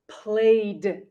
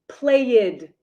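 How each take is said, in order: First: The word is said as one syllable. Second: The word is said with an extra syllable. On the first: The speaker calls it right. "there is no extra syllable. We say played" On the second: The speaker calls it wrong. "not played"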